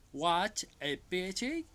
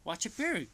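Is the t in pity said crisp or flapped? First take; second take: crisp; flapped. First: The t in pity is a crisp t. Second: The t in pity is a flapped r-like sound.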